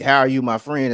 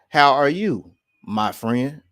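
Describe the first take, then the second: First: It runs on with no pause before "my friend." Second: There is a pause before "my friend."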